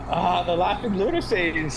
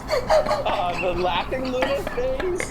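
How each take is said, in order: First: It is said in a normal voice. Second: It is said in a mystical voice.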